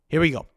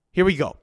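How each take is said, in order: Both takes have the same delivery.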